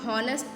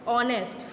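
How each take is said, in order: First: The word begins with an h sound. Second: The word begins with a vowel, no h. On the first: The speaker calls it wrong. "हॉनेस्ट नहीं बोलते हैं" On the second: The speaker calls it right.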